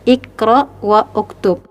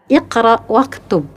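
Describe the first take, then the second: First: An extra vowel is pronounced after 'wa'. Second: 'Wa' links straight into the next consonant. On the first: The speaker calls it wrong. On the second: The speaker calls it right.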